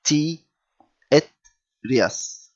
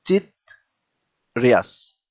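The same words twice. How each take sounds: First: "T, et, rias" in three parts with pauses; separate syllables. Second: "tit" as one syllable, pause, then "rias"; without the jenkem. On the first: Teacher reading the Trinity example, "T, et, rias" piece by piece. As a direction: say high "T", stop, "et", stop, then "rias". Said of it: "as if there is an A before it". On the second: Teacher showing the word without jenkem, "tit" run together. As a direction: say "tit, rias" with no break inside "tit". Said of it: "if there wasn't this jenkem". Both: Shown as a demonstration.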